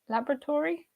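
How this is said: It is said the British way. "U K"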